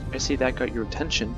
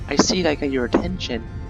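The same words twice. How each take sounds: First: It is read in a plain, natural voice. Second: It is read in a put-on feminine voice.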